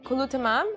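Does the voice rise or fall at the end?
rises. The voice rises at the end, like a question.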